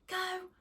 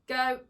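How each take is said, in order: First: It is said in a high, excited pitch. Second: It is said in a low, firm pitch.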